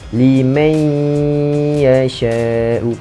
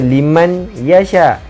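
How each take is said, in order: First: The n merges into ya with a thick nasal hum. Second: The n is said plainly without a long nasal hum. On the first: The speaker calls it right. "gabungkan nun dengan ya dan tebalkan bacaan dia, iaitu tekankan sikit" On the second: The speaker calls it wrong. "Bukan baca liman yasha"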